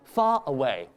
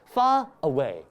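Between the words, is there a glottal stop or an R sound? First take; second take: glottal stop; glottal stop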